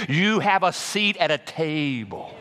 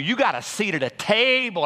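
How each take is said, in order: First: Slow emphatic. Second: High excited call. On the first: Shown as a demonstration. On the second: Acted. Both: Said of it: "I said".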